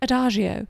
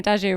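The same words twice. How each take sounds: First: It is said in an exaggerated posh accent. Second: It is said in a plain, everyday accent. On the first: "the really posh accent on it, which I sometimes do. I'm like" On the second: "I'm not putting the really posh accent on it"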